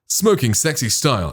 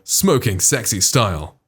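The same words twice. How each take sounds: First: The S sounds are softened and less prominent. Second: The S sounds are sharp and prominent.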